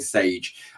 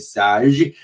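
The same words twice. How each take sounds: First: The name is said with an English accent. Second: The name is said with a French accent.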